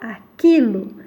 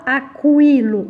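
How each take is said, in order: First: No U sound is heard after the K. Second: A U sound is heard after the K. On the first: The speaker calls it right. "a gente fala aquilo" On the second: The speaker calls it wrong. "a gente não fala aquilo"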